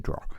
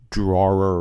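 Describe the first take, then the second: First: Drawer said as "draw", r dropped; Boston pronunciation. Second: Drawer with the final r sounded; standard pronunciation. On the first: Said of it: "We always said drawer". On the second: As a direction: say drawer carefully with its r, low. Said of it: "the actual way you're supposed to pronounce it". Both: Shown as a demonstration.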